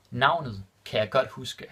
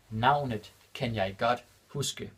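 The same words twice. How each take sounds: First: Said in the usual way. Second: Navnet kan jeg godt huske said slowly, word by word; slow it down for the learners; slow and clear. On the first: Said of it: "repeated slower". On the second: Shown as a demonstration. Teacher repeating the Danish example for learners, slow and clear. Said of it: "repeated slower for learners".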